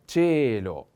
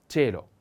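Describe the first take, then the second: First: Cielo slowly, as CHEH-lo with a long e; stress on e. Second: Said in the usual way. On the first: Shown as a demonstration. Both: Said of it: "the accent is on the e".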